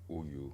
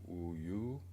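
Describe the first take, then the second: First: Both syllables have about equal weight and length. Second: One syllable is stronger and longer than the other. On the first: The speaker calls it right. "mais c'est Uyu" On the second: The speaker calls it wrong. "Elle fait un peu le Uyu"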